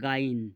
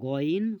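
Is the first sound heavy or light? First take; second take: light; heavy. First: The first sound is light and plain. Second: The first sound is thick and heavy. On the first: The speaker calls it wrong. "গাইন নাই" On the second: The speaker calls it right. "একটু মোটা করা হবে"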